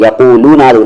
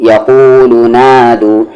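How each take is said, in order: First: यकूलू नादू with the लू stretched long; drawing out लू in यकूलू, the mistake; wrong way. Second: यकूलू नादू slowly with a short लू; right way. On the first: Teacher shows students the stretched लू to avoid. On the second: Teacher gives students the correct short लू. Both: Shown as a demonstration. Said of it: "लू को खींचेंगे नहीं".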